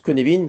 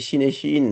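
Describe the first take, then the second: First: The word is given its Welsh pronunciation. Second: The word is read out the way it looks. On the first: This is how the Welsh name is actually said. The speaker calls it right. "mais ça se prononce Connevin parce que c'est du gallois" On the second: This is only how the name is written. The speaker calls it wrong. "ça s'écrit cinéphine"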